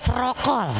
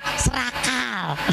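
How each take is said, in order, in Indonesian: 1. Tidak diawali vokal dan vokalnya 'o'. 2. Tidak diawali vokal dan vokalnya 'a'. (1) "Ada yang alifnya dibuang" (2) "nggak pakai kop, pakai kap"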